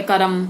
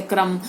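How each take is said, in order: First: करम with a vowel splitting K and R; mispronounced क्रम. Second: क्रम as one cluster, K running straight into R; R blended into K. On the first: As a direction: say करम wrongly as two beats, ka-ram. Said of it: "तो गलत हो जाता है". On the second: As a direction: say क्रम with no vowel between K and R. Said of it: "र को मिलाकर बोलना चाहिए". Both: Shown as a demonstration.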